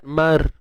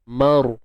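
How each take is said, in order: First: The r is light, with the tongue back not raised. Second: The r is heavy, with the tongue back raised. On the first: The speaker calls it wrong. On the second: The speaker calls it right.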